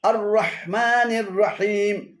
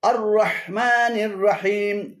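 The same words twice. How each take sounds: Both takes have the same delivery.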